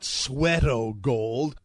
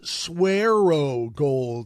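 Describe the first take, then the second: First: The first syllable sounds like the word sweat. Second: The first syllable does not sound like sweat. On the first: The speaker calls it wrong. "You are mispronouncing the name of the product" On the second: The speaker calls it right. "It's Swearo Gold"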